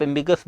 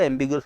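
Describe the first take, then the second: First: एम्बिगस ending in one syllable, "gus"; no "u" glide in एम्बिगस; three-syllable pronunciation. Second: एम्बिगुअस with "u" sounded after the g; two vowels closing एम्बिगुअस, "gu-us"; four-syllable pronunciation. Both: Shown as a demonstration. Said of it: "कौन सा शब्द बोलना".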